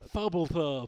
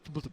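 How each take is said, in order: First: Extra vowel sounds are added inside the name. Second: The name is said clipped, without extra vowels. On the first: The speaker calls it wrong. "they always add some e's and a's into it" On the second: The speaker calls it right. "I would go just Thubblethub"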